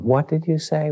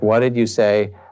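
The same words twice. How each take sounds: First: It sounds open and wanting to understand. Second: It sounds annoyed and a little aggressive.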